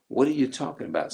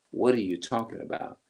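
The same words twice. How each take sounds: First: Quick, higher mock innocence; mocking high fast denial. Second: Said in the usual way. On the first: Mimicking someone caught out, rushed high denial. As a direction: rattle it off high like a dodging liar. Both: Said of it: "when people say".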